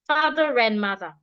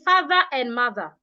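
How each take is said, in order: First: 'Father' and 'and' are joined by a linking r. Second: 'Father' and 'and' are said as separate words. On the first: The speaker calls it right. "I'll say it together" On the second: The speaker calls it wrong. "Instead of saying"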